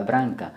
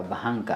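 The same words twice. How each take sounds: First: Branca with a tapped R, not an H; R ya ulimi. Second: Branca said as bahanca, H for R; wrong H sound. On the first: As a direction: say branca with the R on the tongue. (branca kwa R ya ulimi, si H) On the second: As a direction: swap the R of branca for a breathed H: bahanca. (bahanca, sauti ya H badala ya R) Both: Shown as a demonstration. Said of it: "Hapana he hapa".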